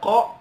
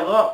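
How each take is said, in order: First: It starts with a deep k from the throat. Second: It starts with a voiced g-like sound. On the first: The speaker calls it right. "harusnya membaca qa" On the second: The speaker calls it wrong. "dia baca gha"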